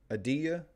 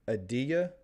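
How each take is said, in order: First: The T is soft, nearly silent. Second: The same.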